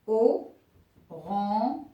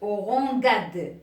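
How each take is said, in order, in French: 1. Le g est doux, comme le s dans measure. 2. Le g est dur, comme le g dans go. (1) "Alors regardez" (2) "se prononce orangade. Alors là, c'est faux"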